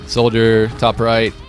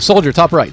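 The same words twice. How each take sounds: First: It is said flatly with little energy. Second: It is said with lively, high energy. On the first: The call fails to energize the team. The speaker calls it wrong. "don't just calm like ... don't be monotone" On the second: The call hypes up and motivates the team. The speaker calls it right. "in a very exciting like way"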